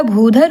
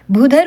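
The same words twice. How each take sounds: First: भूधर with a drawn-out oo; correct भूधर. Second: भूधर with a short u; wrong भूधर. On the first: Teacher corrects the vowel, भूधर with long oo. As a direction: stretch the first vowel of भूधर. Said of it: "होता है". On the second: Teacher shows the misspelling, भूधर with short u. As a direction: clip भूधर to "bhudhar". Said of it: "नहीं होता". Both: Shown as a demonstration.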